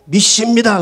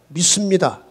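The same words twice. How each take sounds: First: The word is said strongly and forcefully. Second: The word is said in a plain, normal voice.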